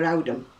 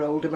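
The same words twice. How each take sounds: First: OWDHAM with an "ow" first vowel; old Oldham accent. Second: Said in the usual way. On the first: Shown as a demonstration. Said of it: "my Oldham accent, for example". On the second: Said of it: "I wouldn't have been born near Oldham".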